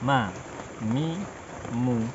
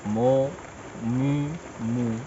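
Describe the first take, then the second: First: The vowels are open and unconfined. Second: The vowels are closed in and confined. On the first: The speaker calls it right. "suara terbuka" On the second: The speaker calls it wrong. "tidak terkurung"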